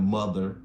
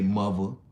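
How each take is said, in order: First: It is said in a general American accent. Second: It is said in a New York accent. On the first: "instead of saying mother" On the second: "in New York, they'll say mother"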